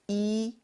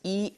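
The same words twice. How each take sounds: First: The vowel is stretched out long. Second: The vowel is short and clipped. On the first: The speaker calls it wrong. "and not e" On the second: The speaker calls it right. "E must be pronounced as e"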